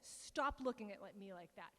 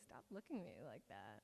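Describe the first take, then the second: First: It is said in a serious, uneasy way. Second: It is said in a coy, flirtatious way. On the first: She genuinely wants him to stop. "She says" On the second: She is teasing and inviting attention. "she does not deliver this line in a coquette way. She doesn't say"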